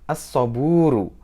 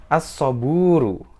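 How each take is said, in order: No difference in how they are said.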